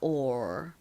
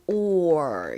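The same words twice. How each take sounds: First: The sound is said at normal speed. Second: The sound is said slowly and drawn out.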